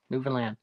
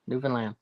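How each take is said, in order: Both takes have the same delivery.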